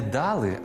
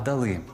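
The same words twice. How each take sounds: First: The stress is on the first syllable. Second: The stress is on the second syllable. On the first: The speaker calls it wrong. "не дали" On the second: The speaker calls it right. "а дали"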